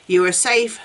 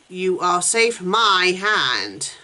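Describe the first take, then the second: First: Said in the usual way. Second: Slow menacing repeat. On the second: A narrator's reading. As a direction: drag each word out very slowly. Negan repeats it slowly, menacing.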